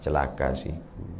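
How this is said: It is said softly and gently.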